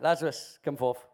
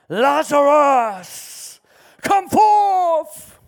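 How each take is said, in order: First: It is said plainly, without drama. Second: It is said in a dramatic voice.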